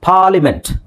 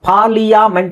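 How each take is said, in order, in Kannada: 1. ಇದನ್ನು par-li-ment ಎಂದು ಹೇಳುತ್ತಾರೆ, ಹೆಚ್ಚುವರಿ ಸ್ವರ ಇಲ್ಲ. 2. ಇದನ್ನು par-li-ya-ment ಎಂದು ಹೇಳುತ್ತಾರೆ, ಹೆಚ್ಚುವರಿ ಸ್ವರ ಇದೆ. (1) "ಎ ಯಾಕೆ ಬೇಕು ನಮಗೆ?" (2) "ಪಾರ್ಲಿಯಾಮೆಂಟ್ ಅಂತ ಹೇಳಲ್ಲ"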